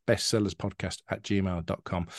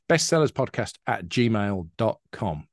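First: Said in the usual way. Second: Careful slow email read-out; slow dictation. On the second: Shown as a demonstration. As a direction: say bestsellerspodcast at gmail dot com slowly, each part spaced out. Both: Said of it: "you can get in touch".

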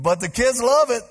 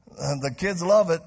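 First: Love it called out loud and high, falling; loud emphatic. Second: Said in the usual way. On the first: Real, not acted. Preacher shouting to the congregation, loud emphatic. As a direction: punch the word love with a big falling shout.

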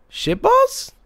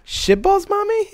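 First: Put-on very high little-kid question; sweet innocent child. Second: Put-on high-pitched little-kid query, rising; innocent questioning child. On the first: Child innocently echoing mom's curse, sweet innocent voice. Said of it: "in the sweetest, most innocent voice". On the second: Little Harper asking mommy about the word, innocent questioning voice. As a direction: ask it like a puzzled small child. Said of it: "it was in question form".

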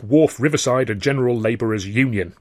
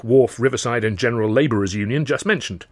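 First: Gatekeeper naming the union, WHARF stressed, falling; Cockney gatekeeper. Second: Said in the usual way. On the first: Acted. Gatekeeper telling a stranger the union's full name. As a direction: say "Wharf" with weight like a gate man reciting the rules.

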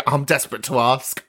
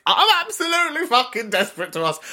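First: Said in the usual way. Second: Higher, insistent emphasis on ABSOLUTELY FUCKING; emphatic escalation. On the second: Real, not acted. Host confessing nosiness to listeners, emphatic escalation. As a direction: heighten "absolutely fucking desperate" with a raised pitch.

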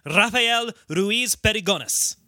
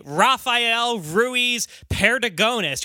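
First: Spanish name with rolled R; Spanish accent. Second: Spanish name in flat American gringo sounds; slow, Americanized gringo pronunciation of the name; gringo accent. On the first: Host showing how he wants to say the name, Spanish accent. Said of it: "You wanna say". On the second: Host showing how he doesn't want to say it, gringo accent. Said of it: "don't wanna sound like a gringo". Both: Shown as a demonstration.

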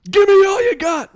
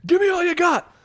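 First: Very high, full-volume yell; hammed-up interrogator's all-out shout; mimicked movie scream. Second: Very high, raised-voice outburst; sudden high demand, short of full volume; mimicked movie scream. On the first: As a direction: scream it out of nowhere at a suspect. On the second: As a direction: imitate an interrogator bursting out. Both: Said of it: "out of nowhere screams at him".

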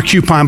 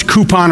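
First: "coupon" said CUE-pon; first syllable of "coupon" like cue. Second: "coupon" said COO-pon; first syllable of "coupon" like coo. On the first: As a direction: say "coupon" with a y-glide before the oo. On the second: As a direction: say "coupon" with a plain oo, no y sound. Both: Shown as a demonstration. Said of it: "I don't know if it's coupon or coupon".

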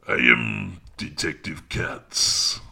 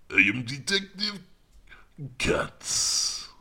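First: Slow, measured French accent. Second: High-pitched French accent. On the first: Comedian demonstrates his French detective for the listener, slow French accent. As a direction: try out an authoritative French detective voice. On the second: Comedian tries the detective line a second way, high French accent. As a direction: pitch the French detective way up, pausing before the name. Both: Shown as a demonstration. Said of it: "go with the French accent".

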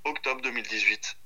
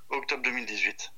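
No difference in how they are said.

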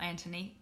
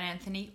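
First: "Antony" with a plain T; T pronunciation. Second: "Anthony" with a TH in the middle; TH pronunciation. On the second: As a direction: say "Anthony" with th as in thin. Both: Shown as a demonstration. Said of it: "depending on".

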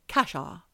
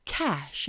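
First: Extra "ah" on the end of Casha; mispronounced Casha. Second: Said in the usual way. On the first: Retold or imitated. Patient copying speech therapist, Casha gaining an extra syllable. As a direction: say Casha with an added open vowel. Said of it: "And she's going". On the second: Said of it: "he's saying things like".

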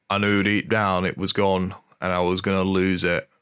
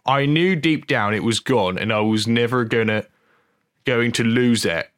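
First: Lightly put-on Geordie accent. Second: Lightly put-on Norfolk country accent; comic attempt at a Norfolk accent; Hot Fuzz voice. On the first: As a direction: read it in a rough attempt at Geordie. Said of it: "I don't know why he's a Geordie". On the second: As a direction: read the quote in mock Norfolk. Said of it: "Hot Fuzz voice".

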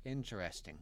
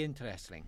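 First: Said in the usual way. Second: "interesting" said with a sudden Irish lilt; Irish accent on the last word. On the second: Acted. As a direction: slip into Irish only on "interesting". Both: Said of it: "the accent just on the final word".

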